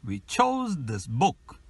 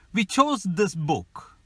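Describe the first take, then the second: First: We chose this book slowly, beats on chose and book; drawn-out ti tum ti tum; slow stress rhythm. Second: Chose and book stressed, We and this weak; stress rhythm. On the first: Teacher slows the sentence to drill rhythm. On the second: Teacher models sentence stress for learners, rhythmic. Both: Shown as a demonstration. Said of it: "Ti tum ti tum".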